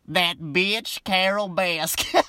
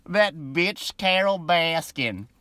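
First: Slow, drawn-out mock Southern accent, rising on Carol; imitating Joe Exotic's Southern twang; a light Southern accent stretched out slowly; Joe's Southern accent. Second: Slow, breathy whisper of the line; whispered mock Southern accent. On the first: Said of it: "I gotta work on that Joe accent". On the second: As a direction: hush it like a secret insult. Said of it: "I can't even say it with a straight face".

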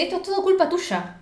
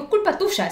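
First: Higher-pitched accusing line, lightly played; a hint of an angry girlfriend; blaming. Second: Slightly higher, light accusing replay; understated retold reproach; mild blame. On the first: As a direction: throw the blame at her. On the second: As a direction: toss off the blame again. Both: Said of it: "se lo dice así".

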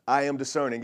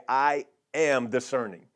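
First: Said in the usual way. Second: Call and repeat. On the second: Shown as a demonstration. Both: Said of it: "So somebody just say right now".

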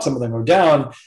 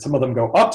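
First: DOWN drops at the end; falling pitch. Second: UP lifts at the end; rising pitch. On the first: Explaining Chinese tones to a learner, falling on DOWN. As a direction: let the pitch fall on "down". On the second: Explaining Chinese tones to a learner, rising on UP. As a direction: let the pitch climb on "up". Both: Shown as a demonstration.

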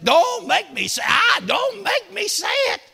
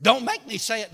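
First: Rising louder and higher plea; preacher retelling his own words to God, building; building shout. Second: Said in the usual way. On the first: Retold or imitated. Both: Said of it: "I said".

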